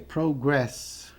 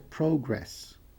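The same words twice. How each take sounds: First: The stress is on the second syllable. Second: The stress is on the first syllable. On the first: It is the verb, to progress. "Progredir é progress" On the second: It is the noun, progress. "O progresso é progress"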